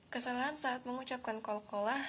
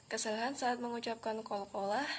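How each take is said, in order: Both takes have the same delivery.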